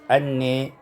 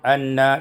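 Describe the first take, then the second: First: The vowel after n leans toward e. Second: The vowel after n is an open a. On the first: "diimalkan fathah nun dan alif" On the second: "imalatu fathatin nun wal alif"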